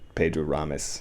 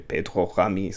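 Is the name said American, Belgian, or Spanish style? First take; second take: American; Belgian. First: The name is said with an American accent. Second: The name is said the Belgian way. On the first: "I'll say it like with an English, an American accent" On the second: "if he's Belgian, then I would say"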